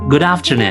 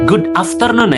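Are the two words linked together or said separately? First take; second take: linked; separate. First: The two words are linked smoothly without a break. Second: The two words are said separately with a break. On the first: The speaker calls it right. "sekarang disambung" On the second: The speaker calls it wrong. "nah itu terpisah tuh"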